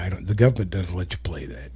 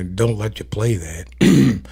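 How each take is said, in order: First: Said in the usual way. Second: Slow callback. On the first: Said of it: "speaking of, uh, don't let you play that". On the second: Shown as a demonstration. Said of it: "speaking of".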